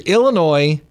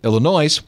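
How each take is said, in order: First: The name is said in the usual way. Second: The name is said in a variant pronunciation.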